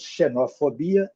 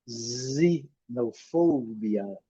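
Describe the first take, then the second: First: The stress falls on the 'bi' syllable. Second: The stress falls on the 'fo' syllable. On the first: This is the Portuguese pronunciation. "Nós acentuamos no bi" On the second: This is the English pronunciation. "eles acentuam no fo"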